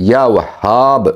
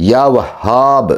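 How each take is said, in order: No difference in how they are said.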